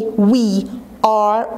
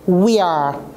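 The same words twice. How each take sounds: First: Both words are said fully and separately. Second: The words are run together quickly into one syllable. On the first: "I didn't say we are" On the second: "I'm going to read it quickly like this"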